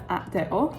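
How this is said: The letters are named with Spanish letter names. This is how it is said locally in Mexico. The speaker calls it right. "because that is how they pronounce it here"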